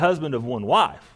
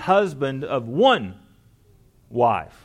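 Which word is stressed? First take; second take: husband; one. First: The word husband carries the stress. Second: The word one carries the stress. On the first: He must be married. The speaker calls it wrong. "not necessarily that he must be married" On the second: He may have only a single wife if married. The speaker calls it right. "when they put one at the beginning of the sentence, what Paul is emphasizing here"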